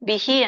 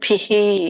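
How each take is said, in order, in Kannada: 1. ಮೊದಲ ವ್ಯಂಜನವನ್ನು ಅಲ್ಪಪ್ರಾಣವಾಗಿ ಹೇಳಲಾಗುತ್ತದೆ. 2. ಮೊದಲ ವ್ಯಂಜನವನ್ನು ಬಲವಾದ ಮಹಾಪ್ರಾಣದೊಂದಿಗೆ ಹೇಳಲಾಗುತ್ತದೆ. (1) "ಬಿಹಿ ಅನ್ಬೇಡಿ" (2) "ದೊಡ್ಡ ಭದೆ"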